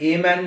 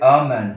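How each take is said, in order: First: The article sounds like 'ay', a full vowel. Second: The article sounds like 'uh', a short vowel. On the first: The speaker calls it wrong. "সবাই এ man বলে আমার কাছে আসে" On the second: The speaker calls it right. "তারপরে আ man হয়"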